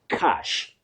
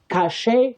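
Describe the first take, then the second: First: It is said exactly like the word 'cash'. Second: It is said like the word 'cachet'. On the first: The speaker calls it right. "You say cash" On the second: The speaker calls it wrong. "Many people innocently mispronounce that word as cache. Cache, no"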